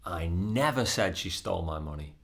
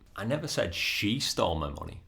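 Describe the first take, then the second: First: The stress falls on the word never. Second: The stress falls on the word she. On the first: The speaker denies ever having said it. "That is emphasizing that it's not something that I said" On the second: Someone other than her stole the money. "I just said somebody stole my money or somebody else stole my money"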